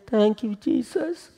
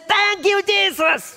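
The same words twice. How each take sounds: First: It is said at a normal, quiet volume. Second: It is said in a loud voice. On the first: It is only an ordinary thanks. "He did not just say" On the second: Everyone knows something happened. "Loud voice"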